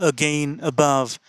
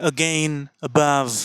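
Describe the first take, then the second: Both takes have the same delivery.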